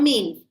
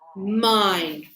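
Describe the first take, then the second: First: The vowel is a short 'i' sound. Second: The vowel is a long 'eye' sound. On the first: The speaker calls it wrong. "Not min" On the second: The speaker calls it right.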